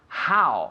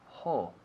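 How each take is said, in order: First: The word sounds like "how". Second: The word sounds like "ho". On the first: The speaker calls it right. "but how" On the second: The speaker calls it wrong. "I hear students all the time say ho"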